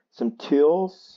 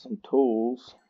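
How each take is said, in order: First: Rising, louder query on tools; questioning. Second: Said in the usual way. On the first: Shown as a demonstration. Repeating his own words back as a question. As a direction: ask it back as a puzzled question.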